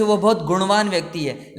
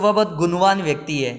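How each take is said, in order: First: गुणवान with retroflex ṇ; correct nasal. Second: गुणवान with plain dental n, "gunwan"; common mispronunciation. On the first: Teacher's correct example sentence, गुणवान with retroflex ṇ. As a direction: curl the tongue back for the ṇ in गुणवान. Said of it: "जबकि होता है गुण". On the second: Teacher quoting many people's mistake, गुणवान as "gunwan". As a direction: flatten the ṇ of गुणवान to n. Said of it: "लेकिन कई लोग बोलते हैं". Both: Shown as a demonstration.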